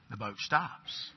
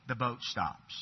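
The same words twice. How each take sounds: First: "The boat stops." said slowly and quietly, each word weighed; slow dramatic repeat. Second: Said in the usual way. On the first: Shown as a demonstration. Preacher repeating the moment to his congregation, slow and hushed. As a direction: let "The boat stops." land slowly as the shock sinks in.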